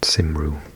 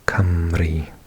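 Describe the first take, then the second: First: The first vowel is an 'ih' sound. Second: The first vowel is an 'uh' sound. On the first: The speaker calls it wrong. "it's not Simru, like I've heard some people pronounce it" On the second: The speaker calls it right. "So we say Cymru"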